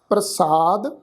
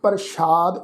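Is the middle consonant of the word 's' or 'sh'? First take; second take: s; sh. First: The middle consonant is said as plain 's'. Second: The middle consonant is said as 'sh'. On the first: The speaker calls it right. "असी पाठ उच्चारण करांगे" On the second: The speaker calls it wrong. "सस्से अखर के पैर में बिंदी लगा के पाठ असी प्रसाद इस ढंग नाल उच्चारण नहीं करना"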